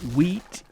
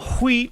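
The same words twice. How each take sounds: First: It starts with a plain w sound. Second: It starts with a breathy h before w. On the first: This is the normal everyday pronunciation. "like a normal person" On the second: It is said this way as a joke. "I am saying the H in front of the W on purpose"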